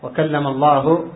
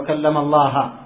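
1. تنتهي كلمة الله بضمة قصيرة 'u'. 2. تنتهي كلمة الله بفتحة قصيرة 'a'. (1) "هكذا الآية" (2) "قالوا وكلم الله بالفتح"

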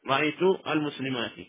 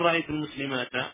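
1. تنتهي الكلمة الأخيرة بحركة 'i'. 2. تنتهي الكلمة الأخيرة بحركة 'a'.

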